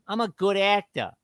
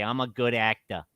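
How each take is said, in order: First: Repeated much higher, mocking. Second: Said in the usual way. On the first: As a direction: say it again way up high, mocking. Repeats line, second take higher.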